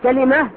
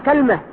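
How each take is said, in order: First: Vowel a after k, vowel i after l. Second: Vowel a after k, no vowel after l. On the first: "كلمة بفتح الكاف مع إيش؟ مع كسر اللام" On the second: "فتح الكاف مع سكون إيش؟ اللام"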